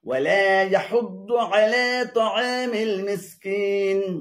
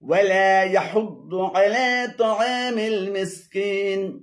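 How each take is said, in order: No difference in how they are said.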